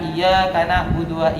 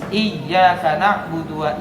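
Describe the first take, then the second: First: The y sound is short and single. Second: The y sound is doubled and held longer. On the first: The speaker calls it wrong. "kalau tidak diberi tasdid dibaca" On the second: The speaker calls it right.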